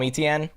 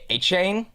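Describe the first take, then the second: First: The name is said the common way, like Etienne. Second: The name is said the Cajun way, like A-Chain. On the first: This is how most people say the name. The speaker calls it wrong. "people still call him Etienne" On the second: This is the name's true pronunciation. The speaker calls it right. "the real pronunciation? Like I believe it's the Cajun way"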